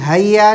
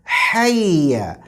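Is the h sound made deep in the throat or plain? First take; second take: plain; throat. First: The h sound is a plain, light h. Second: The h sound comes from the middle throat. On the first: The speaker calls it wrong. "हय्या नहीं" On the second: The speaker calls it right. "जो हलक के दरमियानी हिस्से से अदा होगा"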